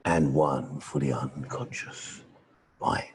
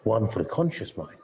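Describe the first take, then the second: First: Much lower, slow, soft trance voice; deep slow hypnotic murmur; deep unconscious voice. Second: Said in the usual way. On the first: Shown as a demonstration. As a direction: sink the voice down for the unconscious. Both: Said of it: "He had at least two voices".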